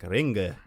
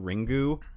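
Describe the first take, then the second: First: The word ends with a reduced 'uh' vowel. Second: The word ends with a clear 'oo' vowel. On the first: The speaker calls it right. "I think it's like Ringa or something like that" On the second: The speaker calls it wrong. "the pronunciation Ringu is like the really American way to do it"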